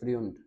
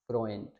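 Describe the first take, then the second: First: The vowel is a yoo sound. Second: The vowel is an oy sound. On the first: The speaker calls it wrong. "फ्रुंड या फ्रियुंड, तो ये गलत है" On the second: The speaker calls it right. "ए ऊ को हमने पढ़ना है ओए, तो इसको हम पढ़ेंगे फ्रोएंट"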